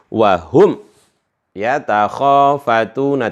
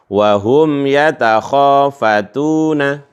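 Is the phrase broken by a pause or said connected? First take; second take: broken; connected. First: The phrase is cut off with a break. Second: The phrase flows on without a break. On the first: The speaker calls it wrong. "tidak boleh dipotong bacanya ... tidak boleh ya" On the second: The speaker calls it right. "tapi harus nyambung"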